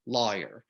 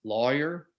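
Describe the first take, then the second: First: "lawyer" with a shifted regional first vowel; contrasting lawyer vowel. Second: "Lawyer" with rounded aw in the first syllable; first lawyer vowel. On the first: Host shows a subtle difference, altered first vowel in "lawyer". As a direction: say "lawyer" subtly unlike the rounded Southern way. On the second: Host shows a subtle difference, rounded aw in "Lawyer". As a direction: say "Lawyer" with an unmerged aw. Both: Shown as a demonstration. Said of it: "it's very subtle, but, but there is a difference there in that vowel".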